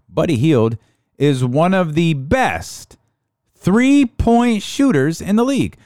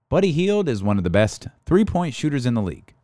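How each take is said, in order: First: The sentence is spoken at a slow pace. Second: The sentence is spoken at a normal pace.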